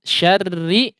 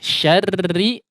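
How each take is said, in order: Both takes have the same delivery.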